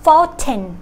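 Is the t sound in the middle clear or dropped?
clear. The t sound is clearly pronounced. This is the British way. "เสียงตัว t อยู่คือเสียงอยู่ก็จะเป็น ... ก็คือเป็นของอังกฤษ"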